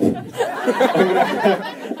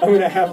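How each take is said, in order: First: Laughing while talking. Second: Said in the usual way. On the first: Real, not acted. Laughing through repeated phrase.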